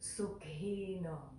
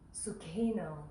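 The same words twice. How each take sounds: First: The final O vowel is held long. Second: The final O vowel is short. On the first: The speaker calls it right. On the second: The speaker calls it wrong.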